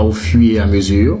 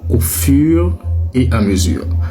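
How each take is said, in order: First: The R sound in 'fur' is dropped. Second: The R sound in 'fur' is clearly pronounced. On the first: The speaker calls it wrong. "Ne sacrifiez pas le R. Ce n'est pas" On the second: The speaker calls it right. "C'est bien"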